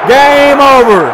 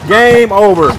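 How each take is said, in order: First: Much louder, high-pitched victory shout; roaring celebration; triumphant shout. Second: Loud, raised victory call; proudly called out; triumphant call. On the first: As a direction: belt out the win at full voice. Calls the championship win louder. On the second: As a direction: announce the win loudly. Calls the championship win. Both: Real, not acted.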